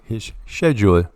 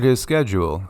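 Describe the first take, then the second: First: Schedule is said with an imitated British pronunciation. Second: Schedule is said with the usual American pronunciation.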